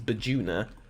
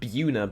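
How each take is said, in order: First: The name is said in a longer form. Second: The name is said in a shorter form. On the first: This is the correct pronunciation. The speaker calls it right. "but apparently it's Bajuna" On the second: This is how the speaker used to say it. The speaker calls it wrong. "I always pronounced it Buna"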